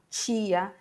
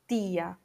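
First: The t sounds hissy, like a ch sound. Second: The t sounds plain, with no hiss. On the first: "meio chiado, né?" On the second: "Isso não vai acontecer em espanhol"

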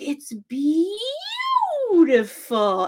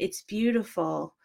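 First: It is said in a mocking tone. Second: It is said sincerely and shyly.

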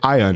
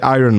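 First: It is said in a British accent. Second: It is said in a non-British accent. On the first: "they say Iron" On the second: "they don't say Iron Maiden"

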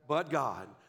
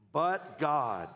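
First: The phrase is said in a plain, calm voice. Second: The phrase is said loudly with strong conviction. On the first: "say that with me" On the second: "Now say it like you mean it"

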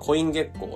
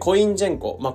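First: The second part sounds like 'gekko' without an n. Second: The second part sounds like 'jenko' with an n. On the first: The speaker calls it right. "コインジェンコじゃなくてコイン月光だよ" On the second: The speaker calls it wrong. "なんかなぜかN をつけたような状態で自分で読んでて"

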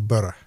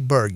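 First: The ending is said the Scottish way. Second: The ending is said like 'berg'. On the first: The speaker calls it right. "you say Burgh" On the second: The speaker calls it wrong. "You don't say Berg"

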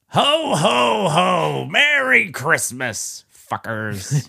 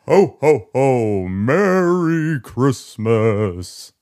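First: A loud, drunk Santa voice like Krusty. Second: A shaky, spooky-sounding Santa voice.

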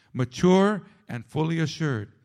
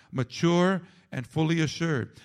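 No difference in how they are said.

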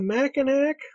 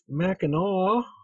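First: The word ends with a k sound. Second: The word ends with an aw sound. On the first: The speaker is from out of town. The speaker calls it wrong. "you can tell people that are out of town" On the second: The speaker is a local. The speaker calls it right. "That's Mackinac"

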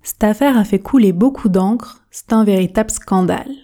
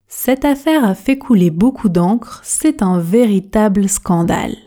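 First: The sentence is spoken quickly and informally. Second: The sentence is spoken at a moderate, fluent pace. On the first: "pratiquons la version rapide, la version express. Je prononce" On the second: "Faites attention à la prononciation et à l'intonation"

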